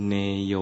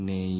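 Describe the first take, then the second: First: เนโย said as two syllables, เน then โย; correct Pali pronunciation. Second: เนย run together as one syllable; Thai-style mispronunciation. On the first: Monk teaching the proper sound, เนโย said in two syllables. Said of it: "คำออกเสียงนะ อาหุ". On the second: Monk showing how Thais say it, เนย as one syllable. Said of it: "ออกเสียงเป็นเนย". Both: Shown as a demonstration.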